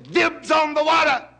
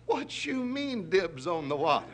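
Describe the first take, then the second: First: High, loud shout from an excited tiger; shouted claim. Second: Indignant challenge. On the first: Tiger beating the lion to the pool, shouting. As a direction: yell it out to claim it first. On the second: Lion challenges tiger's claim. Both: Acted.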